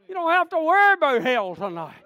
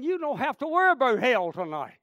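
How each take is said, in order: First: Loud, high pulpit cry; raised, fervent repeat; emphatic preaching shout. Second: Said in the usual way. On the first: Real, not acted. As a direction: drive it home to the congregation at full voice.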